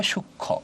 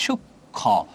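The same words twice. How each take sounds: First: সূক্ষ্ম said softly as shukkho; shown pronunciation. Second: সূক্ষ্ম split into shuk, then kho; shown pronunciation. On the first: Teacher answers how it is pronounced, সূক্ষ্ম as a joined shukkho. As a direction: say সূক্ষ্ম as shukkho, in one piece. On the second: Teacher shows students the sounds, সূক্ষ্ম split as shuk-kho. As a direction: break সূক্ষ্ম after shuk and land on a full kho. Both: Shown as a demonstration. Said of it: "উচ্চারণটা কি হবে".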